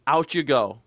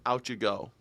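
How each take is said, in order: First: Said in the usual way. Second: Much softer, dropped down; quiet repeat. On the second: Retold or imitated. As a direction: let it fade almost to nothing. Dismissing the accused.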